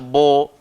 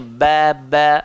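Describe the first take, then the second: First: The syllable is said thick and heavy. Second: The syllable is said thin and light. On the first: The speaker calls it wrong. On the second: The speaker calls it right. "sifat dia nipis"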